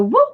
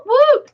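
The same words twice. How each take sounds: First: Said in the usual way. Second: Squealed whoop, much higher. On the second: Real, not acted. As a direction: jump way up on whoop. Celebrating a correct answer.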